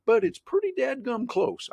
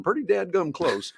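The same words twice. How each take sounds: First: "pretty dadgum close" slow and much higher, leaning on "pretty"; stress on pretty dadgum. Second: "pretty dadgum close" repeated with a lift on "pretty"; folksy repeat. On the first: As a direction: drag out "pretty dadgum close" for folksy emphasis. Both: Real, not acted. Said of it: "I think that's the technical term".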